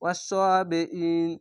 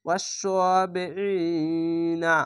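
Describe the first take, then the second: First: Wrong reading of ওয়াস সোয়া বি ইন, hamza glided over; hamza dropped. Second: ওয়াস সোয়া বি ই না with a clear catch before ই, then ই held long; hamza sounded. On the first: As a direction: run বি into ইন without the catch of hamza. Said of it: "এই হামজাটিকে ছেড়ে দেয়". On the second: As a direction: articulate the hamza and stretch ই before না. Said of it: "এখানে হামজাটাকে পড়তে হবে". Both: Shown as a demonstration.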